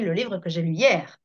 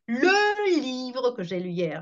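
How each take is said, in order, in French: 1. Le mot 'le' est non accentué. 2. Le mot 'le' porte l'accent. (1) "en position inaccentuée en plus" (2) "je ne vais pas dire"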